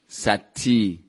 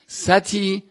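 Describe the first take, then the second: First: The t sound is doubled and held longer. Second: The t sound is short and single.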